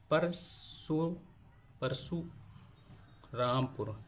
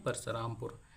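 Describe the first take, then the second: First: Parshurampur drawn out very slowly, broken into पर, सु, Rampur; syllable by syllable. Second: Said in the usual way. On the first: Shown as a demonstration. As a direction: say Parshurampur in slow separate pieces with pauses between syllables. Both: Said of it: "देखिए इसमें चार syllable आ गए".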